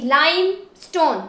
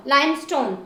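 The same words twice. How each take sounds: First: limestone as lime, then stone; syllable by syllable. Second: Said in the usual way. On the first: Shown as a demonstration. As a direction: separate the two parts of limestone. Teacher splits word into syllables.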